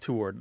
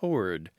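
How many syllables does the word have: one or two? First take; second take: two; one. First: It is two syllables with a W sound. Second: It is one syllable with no W sound. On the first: This is how most people say it. "They pronounce the W. It's two syllables, not one" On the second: This is the traditional, more elite form. "classic, maybe even elitist pronunciation is ... T O R D"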